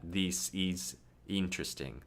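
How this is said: It is said with a Brazilian vowel.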